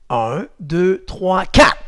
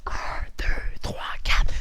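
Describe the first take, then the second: First: Said in the usual way. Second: Hushed, voiceless counting; whispered count. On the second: Shown as a demonstration. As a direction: whisper each number distinctly. Same count repeated whispered. (compte chuchoté)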